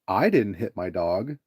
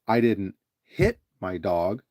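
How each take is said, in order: First: The stress falls on the word I. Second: The stress falls on the word hit. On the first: Someone else hit the dog. "if you emphasize the "I" when you say that" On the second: Something else was done to the dog. "So you emphasize the word "hit,""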